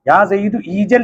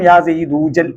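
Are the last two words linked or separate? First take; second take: separate; linked. First: The last two words are said separately. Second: The last two words run together as one. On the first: This is how it is written. "എഴുതും" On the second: This is how it is pronounced. "ഉച്ചാരണം യാ സെയ്ദൂജൽ എന്നാക്കും"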